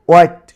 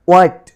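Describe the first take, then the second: The two takes are said the same way.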